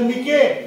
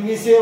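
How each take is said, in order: First: It is read with a short i and a k. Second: It is read with a short i and an s. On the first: "तिथं तुम्ही काय करसाल, मिके" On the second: "कोणी मिसे वाचणार"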